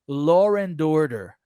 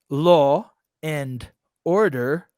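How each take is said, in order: First: An r sound links law and and. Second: Law and and are said without a linking r. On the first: The speaker calls it right. "there is an R in between law and" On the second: The speaker calls it wrong. "you don't speak like a pro yet"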